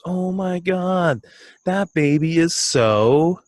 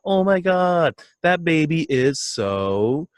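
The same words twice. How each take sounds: First: High, slow, gushing coo; imitating a coworker cooing at a baby photo; gushing over baby. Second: High, slow, drawn-out coo; mock cooing at a baby photo; gushing over baby. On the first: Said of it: "And she goes". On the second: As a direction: swoon over the baby picture. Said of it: "and you hear".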